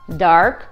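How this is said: The R sound is clearly pronounced. "Но в американском произносится"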